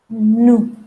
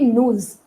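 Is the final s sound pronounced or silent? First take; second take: silent; pronounced. First: The final s sound is silent. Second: The final s sound is pronounced. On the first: The speaker calls it right. "we are not going to pronounce S" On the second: The speaker calls it wrong. "So it will not be nous"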